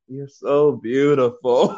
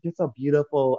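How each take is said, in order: First: It is said slowly and drawn out. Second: It is said at a normal, crisp pace. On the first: How it really sounded while intoxicated. "in reality, you saying ... saying it more slow" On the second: How the speaker thought it sounded. "you think you saying it like that"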